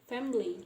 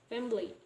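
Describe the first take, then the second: Both takes have the same delivery.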